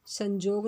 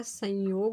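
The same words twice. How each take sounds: First: संजोग said with a j sound, san-jog; wrong form संजोग, j in the middle; संजोग with a clear j, as the mistake. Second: संयोग said with a y sound, san-yog, slowly; संयोग with a clear y glide; correct form said. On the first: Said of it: "संजोग नहीं होता है". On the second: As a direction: correct संयोग with y in the middle, unhurried. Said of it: "संयोग होता है". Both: Shown as a demonstration.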